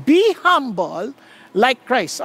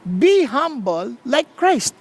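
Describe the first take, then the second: First: "be humble like Christ" said slowly, each word weighed; slow, deliberate "be humble like Christ"; slow emphatic line. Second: "Be humble like Christ." again slowly, each word weighed; slow, deliberate repeat of "Be humble like Christ."; repeated slow emphasis. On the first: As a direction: lay the words down slowly as the key message. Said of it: "Let me repeat". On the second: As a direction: drive the message home a second time. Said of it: "Anong message natin?". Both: Shown as a demonstration.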